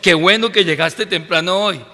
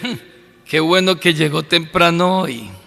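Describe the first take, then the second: First: It is said as sincere praise. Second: It is said with a mocking, sarcastic tone.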